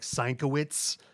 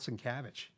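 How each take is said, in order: First: The name is said as Sienkowitz. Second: The name is said with its usual pronunciation. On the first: The speaker calls it wrong. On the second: The speaker calls it right.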